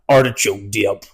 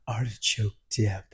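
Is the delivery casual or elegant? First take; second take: casual; elegant. First: It is said in a casual, offhand way. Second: It is said in a refined, elegant way. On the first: The speaker calls it wrong. "That's not how I said it" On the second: The speaker calls it right. "It was very elegant how I said it"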